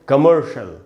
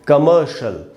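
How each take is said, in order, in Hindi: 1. r की ध्वनि में जीभ मुड़ी होती है। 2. r की ध्वनि छोड़ दी जाती है और उच्चरित नहीं होती। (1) "अमेरिकन इंग्लिश में इसको पढ़ते" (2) "ब्रिटिश इंग्लिश में इसको पढ़ेंगे"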